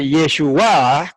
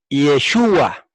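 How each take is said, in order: First: The stress falls on the final a. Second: The stress falls on the u vowel. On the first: It is a noun meaning salvation. "con acento en la A y con H al final" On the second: It is a personal name. "el acento es la U"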